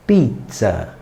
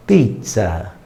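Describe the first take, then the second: First: "pizza" com s simples, à brasileira; pizza brasileiro. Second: "pizza" com o tz italiano bem marcado. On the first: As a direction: diga "pizza" com s, sem dobrar. (pronúncia brasileira de "pizza") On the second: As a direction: diga "pizza" como um italiano, dobrando o z. (pronúncia italiana de "pizza") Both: Shown as a demonstration. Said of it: "Então você falaria".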